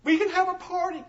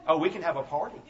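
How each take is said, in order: First: Put-on high, small child's voice, wondering; little boy's hopeful question. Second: Said in the usual way. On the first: Preacher voicing the crying boy, high and childlike. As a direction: sound like a teary five-year-old asking. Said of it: "he looks up and he says".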